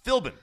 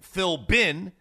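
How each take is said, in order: First: The B is pronounced soft and lightly. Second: The B is pronounced hard and strongly. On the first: The speaker calls it right. "It's Philbin" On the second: The speaker calls it wrong. "It's not a hard B. You know, you don't say Philbin"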